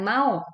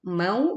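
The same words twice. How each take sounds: First: The syllable is said harshly and abruptly. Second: The syllable is said softly and smoothly. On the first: The speaker calls it wrong. "bukan mau" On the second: The speaker calls it right. "waulin dibaca dengan lembut"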